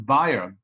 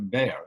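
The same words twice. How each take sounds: First: The name is not said the American way. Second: The name is said the American way.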